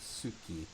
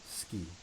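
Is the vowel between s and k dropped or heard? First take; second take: heard; dropped. First: The vowel between s and k is clearly heard. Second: The vowel between s and k is dropped. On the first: The speaker calls it wrong. "you don't actually say the suki" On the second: The speaker calls it right. "you say ski"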